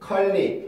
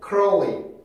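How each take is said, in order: First: Only an L sound is heard, no R. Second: An R sound runs straight into the L. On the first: The speaker calls it wrong. "이렇게 읽었었겠지만" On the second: The speaker calls it right. "R 발음, L 발음이 연속될 때 만들어내는 그 특징"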